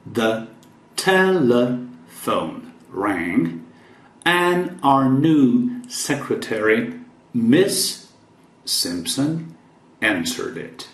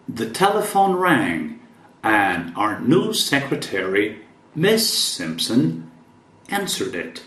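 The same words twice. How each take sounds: First: Slow, careful read for learners; "telephone" drawn out slowly; slow model reading. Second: Said in the usual way. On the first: Shown as a demonstration. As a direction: stretch each word so students can follow. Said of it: "teacher reads sentence slowly again". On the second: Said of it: "first reading of the sentence".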